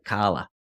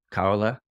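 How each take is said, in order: First: "Carla" in a Boston accent, R dropped. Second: Said in the usual way. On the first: Shown as a demonstration. Presenter joking about a voice's name, Boston accent. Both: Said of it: "with a Boston accent".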